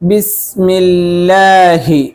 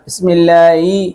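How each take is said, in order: First: The final 'hi' is pronounced clearly and fully. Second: The final 'hi' is pronounced weakly and indistinctly. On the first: The speaker calls it right. "ഹി എന്ന് തന്നെ പറയണം" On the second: The speaker calls it wrong. "എന്നാവരുത്"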